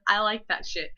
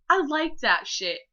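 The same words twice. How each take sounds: First: Said in the usual way. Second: Higher, louder, giggly delivery; giddy. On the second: Real, not acted. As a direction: say it with an embarrassed giggle. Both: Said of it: "I ended it with".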